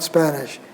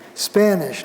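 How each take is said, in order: First: The a vowel is low and lax. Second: The a vowel is raised and tense. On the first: The speaker calls it wrong. "not Spanish" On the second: The speaker calls it right. "Before intervocalic nasals"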